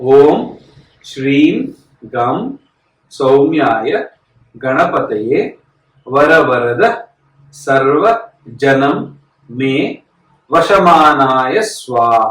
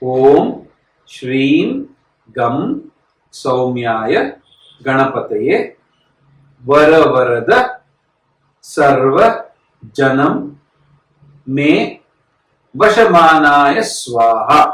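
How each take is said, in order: First: It is recited at a quicker, ordinary pace. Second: It is recited slowly and deliberately.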